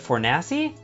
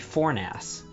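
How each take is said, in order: First: The name ends with an added final vowel. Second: The name ends without a final vowel. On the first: It is how the name is actually said. "was called Dan Fornassi" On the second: It is how the spelling suggests it sounds. "That should be Fornass"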